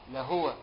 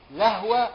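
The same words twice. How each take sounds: First: "لهو" read la-hwa, ha with sukun; "لهو" clipped to la-hwa, no vowel on the ha; "لهو" said la-hwa, lower. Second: "لهو" read la-huwa, ha with fatha; "لهو" as la-HU-wa, ha voiced with a vowel; "لهو" said la-huwa, higher and louder. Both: Shown as a demonstration. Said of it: "فتح الهاء وسكونها".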